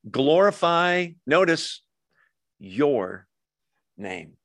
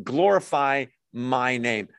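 First: YOUR set apart by pauses; stress on YOUR. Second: MY drawn out slowly; slow down to point up "my"; "my name" slow and deliberate, as the wrong reading; stress on MY. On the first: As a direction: hold back, then land slowly on "your". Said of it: "He's not saying, "Glorify my name". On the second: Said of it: "He's not saying". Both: Retold or imitated.

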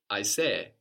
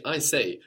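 First: "I say" with a Swahili sound; "I say" ending in a two-beat "ee", first beat accented. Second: Said in the usual way. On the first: Shown as a demonstration. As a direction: say "I say" the Swahili way, accented on the first E of a double final vowel. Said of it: "with a more Swahili sound to it". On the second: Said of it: "Another marker in English, for example".

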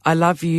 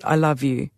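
First: Said in the usual way. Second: Softer, tearful I love you; tearful and quiet. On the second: A narrator's reading. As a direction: let it fall away into tears.

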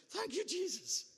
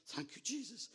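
First: Very high, loud acted thanks; exultant praise. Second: High-pitched acted thanks, not yet shouted; relieved praise. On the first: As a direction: shout the thanks in overjoyed relief. His relieved reaction, louder repeat. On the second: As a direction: give thanks in a raised, relieved voice. His relieved reaction, first take.

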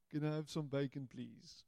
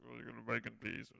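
First: Said in the usual way. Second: Low, hushed mock request under the breath; murmured under the breath. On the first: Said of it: "the constant joke was". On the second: Tourist mutters a cheeky joke to the waiter, hushed. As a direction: mutter it so the waiter can't hear. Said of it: "murmuring it under our breaths".

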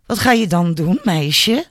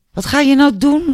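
First: A slightly raised, daring question; challenging. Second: High, loud, provoking question; taunting repeat. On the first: Albert dares Julia to act, mildly challenging. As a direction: goad her with mild defiance. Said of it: "vroeg hij uitdagend". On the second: Albert presses Julia once more, loudly taunting. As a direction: push the challenge hard, much higher and louder. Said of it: "vroeg hij nog een keertje". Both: A narrator's reading.

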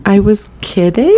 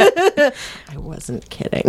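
First: Lilting, rising excuse; feigned backpedaling. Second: Very soft, unvoiced mutter; whispered aside. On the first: Pretend. Caught gossiping about Colin, a sheepish take-back. Acted backpedal after being overheard. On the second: Housemate admitting it under the breath, whispered. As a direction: drop to a whisper for the real truth.

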